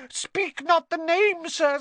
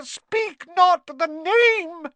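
First: Very high, slow, squeaky wail; moaning elf plea. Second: Loud, very high, drawn-out elf wail; louder moaning plea. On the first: Dobby begging Harry not to name him, high moan. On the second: Dobby begging more desperately, loud drawn-out moan. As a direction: wail it slowly, at full squeak. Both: A narrator's reading. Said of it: "Dobby clapped his hands ... and moaned".

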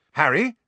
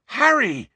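First: Higher, rising urgent call. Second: Very high, loud falling cry; urgent shout. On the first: A friend tries to rouse Harry, calling out. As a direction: call the name to get a response. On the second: A friend desperately rouses Harry from vision, urgent shout. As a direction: shout the name in alarm. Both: A narrator's reading.

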